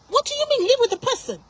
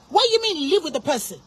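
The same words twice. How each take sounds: First: High-pitched, outraged disbelief; escalated indignation. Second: Indignant question near usual pitch; indignant challenge. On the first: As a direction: pitch leaps up as the challenge is repeated. Repeats the challenge, escalating. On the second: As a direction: question the advice in disbelief, restrained. First indignant challenge to the advice. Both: Real, not acted.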